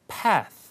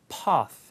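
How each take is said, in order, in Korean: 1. 북미 억양으로 말합니다. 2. 영국 억양으로 말합니다. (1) "북미 영어는 P-A-T-H에서 path" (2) "영국 영어, 호주 영어"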